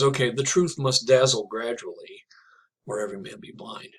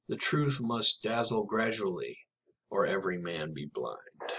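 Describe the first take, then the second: First: Whispered. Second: Slow, measured closing lines of a poem; poem reading. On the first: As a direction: breathe the lines as a whisper. Quotes the poem's closing lines. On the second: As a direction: let the last lines land slowly. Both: Acted.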